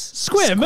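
It sounds confident and assured. The speaker fully backs the idea. The speaker calls it right. "Say with confidence"

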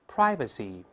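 The first vowel is a gliding diphthong.

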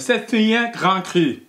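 The name is pronounced with French sounds. "to say it properly en français"

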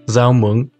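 The first word begins with a Z sound. This is the northern pronunciation. "pronounced with a Z sound in the north"

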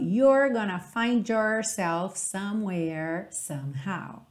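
The R sounds are curled, in an American accent. "num sotaque mais americano"

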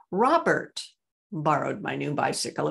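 The word 'Robert' is stressed. It was Robert and not someone else. "It was Robert, not Raymond"

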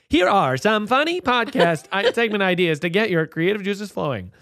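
It is read in a put-on TikTok-style voice. "I'll do it in that TikTok voice"

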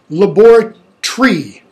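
The word is said in a British accent. "They say"

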